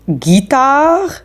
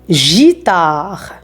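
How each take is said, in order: First: The g is hard, like in 'go'. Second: The g is soft, like 'zh'. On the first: The speaker calls it right. "on a ajouté la lettre U" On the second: The speaker calls it wrong. "pour ne pas prononcer J et je"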